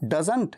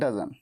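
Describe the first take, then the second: First: The final t sound is pronounced. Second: The final t sound is dropped.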